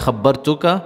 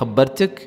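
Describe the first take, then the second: First: The word ends with an added vowel. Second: The word ends on a bare consonant. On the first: This is the formal classical form. "फसीहा में खब्बरतुका बेह" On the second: This is the everyday spoken form. "बोलचाल में बोलेंगे खब्बरतुक"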